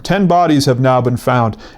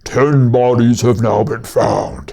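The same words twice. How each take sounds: First: It is said in a normal newscaster voice. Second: It is said in a low, monstrous voice. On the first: "the newscasters will say something like" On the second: "drop the pitch on it so it sounds like a monster voice"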